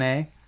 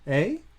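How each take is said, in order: First: It is a casual friendly tag after a greeting. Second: It is a puzzled question asking for a repeat. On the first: It is a friendly conversational filler. "they don't say it like, how's it going, A?" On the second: The person did not hear what was said. "They say A like as a question. Like when you when they didn't hear you"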